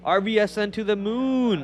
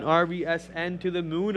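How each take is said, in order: First: Pitched up a little, punchy hype call; hype cheer. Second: Said in the usual way. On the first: Acted. Streamer hyping a stock to chat, mock cheer. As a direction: cheer the ticker on like a fan.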